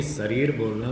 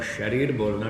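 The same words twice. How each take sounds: First: शरीर as "sarir", with an "s" onset; mispronunciation. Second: शरीर as "sharir", with an "sh" onset; correct pronunciation. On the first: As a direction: replace the "sh" of शरीर with plain "s". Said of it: "गलत है". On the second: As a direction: start शरीर on a clear hushing "sh". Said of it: "ठीक है". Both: Shown as a demonstration.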